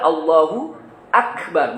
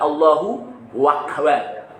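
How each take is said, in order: First: Akbar follows directly with no added w sound. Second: A w sound is added before Akbar. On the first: The speaker calls it right. "Padahal Allahu Akbar" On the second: The speaker calls it wrong. "bukan Allahu Wakbar"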